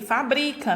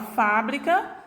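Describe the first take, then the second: First: The stress is not on the first syllable. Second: The stress is on the first syllable. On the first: "Muda a minha sílaba tônica quando eu retiro essa acentuação gráfica" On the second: "Minha sílaba tônica pronunciada com maior intensidade é a sílaba Fá"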